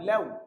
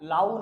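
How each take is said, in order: First: The vowel is a bent, fronted ew sound. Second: The vowel is a plain open ow sound. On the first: The speaker calls it right. "একটু বাঁকা, আরবি তো" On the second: The speaker calls it wrong. "লাউ না"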